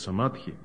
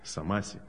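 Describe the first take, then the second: First: The middle consonant is a 'dh' sound. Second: The middle consonant is an 's' sound. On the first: This is the original Sanskrit form. The speaker calls it right. "на санскрите называется самадхи" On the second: This is a nonstandard rendering used by another author. The speaker calls it wrong. "самаси почему-то он говорит"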